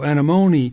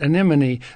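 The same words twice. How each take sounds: First: The stress is on the third syllable. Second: The stress is not on the third syllable. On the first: "the accent is on the M-O, so anemone" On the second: "But not anemone"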